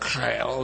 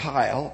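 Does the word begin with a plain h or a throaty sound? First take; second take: throaty; plain h. First: The word begins with a rough, throaty sound. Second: The word begins with a plain, soft h sound. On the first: The speaker calls it right. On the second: The speaker calls it wrong.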